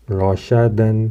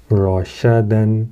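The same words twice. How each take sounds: First: Said in the usual way. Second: رشدن drawn out slowly; slow Arabic reading. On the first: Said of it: "repeat at normal pace". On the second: Shown as a demonstration. Teacher modelling the word slowly. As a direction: stretch رشدن. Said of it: "demo take".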